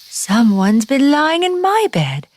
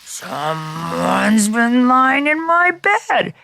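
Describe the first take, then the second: First: It is said in a middle-sized voice. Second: It is said in a great big voice.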